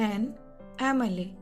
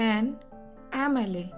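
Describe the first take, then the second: No difference in how they are said.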